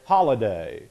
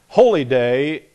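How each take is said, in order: First: It is said fast, run together as one word. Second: It is said slowly as two separate words.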